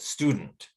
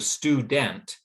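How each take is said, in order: First: The second syllable has a reduced schwa vowel. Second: The second syllable has a full vowel. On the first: The speaker calls it right. "The second syllable gets the schwa sound" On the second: The speaker calls it wrong. "Instead of student"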